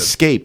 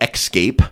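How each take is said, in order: First: It has a plain s sound after the first vowel. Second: It has a ks sound after the first vowel. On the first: The speaker calls it right. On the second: The speaker calls it wrong. "not escape. / where people use X's instead of S's"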